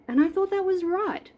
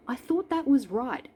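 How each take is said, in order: First: "thought" punched much higher; stress on thought. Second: "was" stressed, rest lighter. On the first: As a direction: lean hard on "thought", high and loud. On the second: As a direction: lean on "was", a bit less high. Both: Shown as a demonstration.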